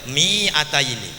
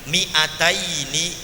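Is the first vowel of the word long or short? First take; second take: long; short. First: The first vowel is drawn out long. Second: The first vowel is said short. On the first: The speaker calls it wrong. "tidak boleh mi'ataini, seperti itu" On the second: The speaker calls it right. "hati-hati minya dibaca pendek"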